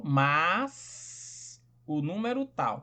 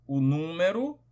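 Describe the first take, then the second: First: O número tal, each word slowly and apart; slow, spaced-out phrase. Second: Said in the usual way. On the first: Shown as a demonstration. Teacher to students spacing out o número tal slowly.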